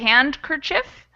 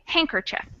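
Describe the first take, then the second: First: The D sound is pronounced in the word. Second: The D sound is left out of the word. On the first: This is an older, less common pronunciation. "technically that D used to be pronounced... you could still say it if you wanted" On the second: This is how most people say it. "Most people say handkerchief"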